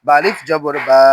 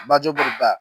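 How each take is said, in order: First: Final বা with a long a; louder, lengthened বা; stretched vowel. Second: Final বা with a short a; just pronounce বা briefly; no stretch. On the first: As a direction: draw out the last বা. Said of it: "জবরে আমরা টান দিব". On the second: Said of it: "তখন কোথাও টান দিব না". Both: Shown as a demonstration.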